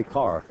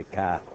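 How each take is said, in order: First: Said in the usual way. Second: "car" said as cah, r dropped; "car" with Boston vowel, no r. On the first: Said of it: "They say car". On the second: Shown as a demonstration. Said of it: "how come they don't say car".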